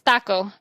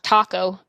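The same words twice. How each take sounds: First: It has a Spanish-influenced Texas pronunciation. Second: It has a plain English-style pronunciation. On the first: "that's how I learned them in Texas" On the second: "Not taco"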